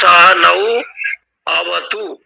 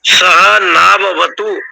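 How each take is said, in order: First: The last two words are said as separate words. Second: The last two words are run together as one. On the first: This is the form split into its individual words. "पदच्छेद है" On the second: This is the combined form used in the recited verse. "ये शब्द बना है"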